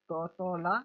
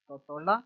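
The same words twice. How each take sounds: First: Each syllable set apart. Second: Said in the usual way. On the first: Shown as a demonstration. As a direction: sound it out piece by piece for a learner. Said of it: "divide कर देना है". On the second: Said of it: "इसको half करके फिर पढ़ेंगे".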